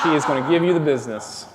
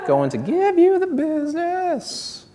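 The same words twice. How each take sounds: First: Said in the usual way. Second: Much higher, slow sing-song take of the line; high falsetto repeat. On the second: Pretend. Repeating his threat to the old lady in a high slow voice.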